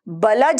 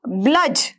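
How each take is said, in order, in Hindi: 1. एक स्वर b और l की ध्वनियों को अलग करता है। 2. b और l की ध्वनियाँ सीधे जुड़ती हैं। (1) "बलज नहीं है" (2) "ये आधा ल दिखा रहा है"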